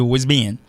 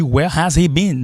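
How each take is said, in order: First: "where's been" quick as "wuh-zee-been"; native linked form. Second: Higher, slow "Where has he been", every word full; form natives never say. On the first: Teacher correcting bookish English, "where's been" run together. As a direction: contract into "where's been", H silent. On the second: Teacher mocking bookish English, "Where has he been" fully pronounced. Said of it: "pa janm di". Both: Shown as a demonstration.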